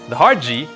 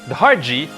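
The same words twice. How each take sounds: The two takes are said the same way.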